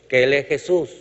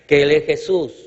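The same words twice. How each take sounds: The two takes are said the same way.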